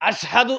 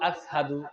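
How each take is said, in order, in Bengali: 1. শব্দটি 'sh' ধ্বনি দিয়ে উচ্চারিত হয়। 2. শব্দটি 's' ধ্বনি দিয়ে উচ্চারিত হয়। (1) "শিন উচ্চারণ করতে পারতেন না" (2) "বলতো আসহাদু"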